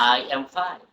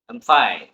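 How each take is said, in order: First: Each word, including I, gets full stress. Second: I is reduced; the stress is on fine.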